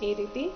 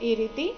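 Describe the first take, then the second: No difference in how they are said.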